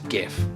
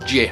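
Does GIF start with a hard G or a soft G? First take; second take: hard G; soft G. First: The word begins with a hard G sound. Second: The word begins with a soft G sound. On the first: The speaker calls it wrong. "the widespread use of the hard G" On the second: The speaker calls it right. "the developer of the format decided it should have a soft G"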